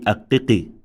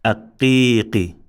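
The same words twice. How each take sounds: First: "aqqiqi" with all vowels short; unextended vowel. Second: "aqqiqi" with the middle i held long; extended vowel. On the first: Teacher showing the mistake, "aqqiqi" said short. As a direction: say "aqqiqi" without holding the middle i. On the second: Teacher modelling extension, "aqqiqi" with a long middle vowel. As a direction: draw out the middle of "aqqiqi", short last syllable. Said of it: "The same thing here". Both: Shown as a demonstration.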